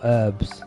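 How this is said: The word is said the American way.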